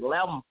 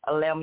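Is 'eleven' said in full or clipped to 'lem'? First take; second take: clipped; full. First: The word is clipped to one syllable, 'lem'. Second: The word is said in full, three syllables.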